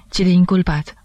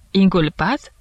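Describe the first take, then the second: First: Said in the usual way. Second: Questioning rise on Inculpat; incredulous echo. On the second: A narrator's reading. Judge hears his friend call himself accused, incredulous echo. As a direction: echo it back as a disbelieving question. Judge echoes the word in disbelief.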